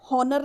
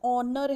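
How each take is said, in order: First: The word begins with an h sound. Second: The word begins with a vowel sound. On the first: The speaker calls it wrong. "देखो एच है, हॉनर नहीं है" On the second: The speaker calls it right. "ऑनर है, ... vowel की sound"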